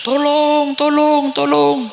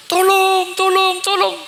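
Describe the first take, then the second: First: Higher, pleading cries for help; cry for help. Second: Much higher, desperate cries; screaming for help. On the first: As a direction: call out like a soul dragged to hell. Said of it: "beda suara ring cerengan". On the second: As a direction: scream for help as you are pushed into hell. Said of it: "Suara menjerit". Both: Acted.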